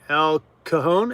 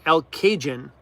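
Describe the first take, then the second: First: The J is not said as a J sound. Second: The J is said as a J sound.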